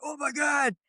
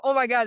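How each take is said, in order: First: Higher pitched mock amazement at the cashier; retold freaking out. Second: Imitating amazement, higher and louder; a second starstruck gasp from the cashier, higher; retold freaking out. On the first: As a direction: imitate the cashier losing it, a bit higher. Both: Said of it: "This dude starts freaking out".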